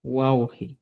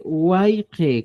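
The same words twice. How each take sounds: First: "guauji" with an AU glide and an I ending; new form GUAUJI. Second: "guayje" with an AY glide and an E ending; old form GUAYJE. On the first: Teacher models the current form for learners, "guauji" ending in I. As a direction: say "guauji" as wau-hi. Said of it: "sino ahora se dice". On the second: Teacher shows learners the outdated form, "guayje" ending in E. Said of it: "como decían antes". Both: Shown as a demonstration.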